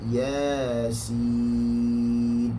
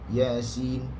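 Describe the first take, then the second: First: Ya and sin are both held long. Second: Both syllables are said short. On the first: The speaker calls it right. "Ya dibaca dengan dua harakat" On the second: The speaker calls it wrong. "kita memendekkan dua-dua"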